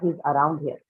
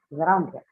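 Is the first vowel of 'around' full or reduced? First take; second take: full; reduced. First: The first vowel of around is loud and full. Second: The first vowel of around is a reduced schwa. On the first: The speaker calls it wrong. "not he's around here" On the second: The speaker calls it right.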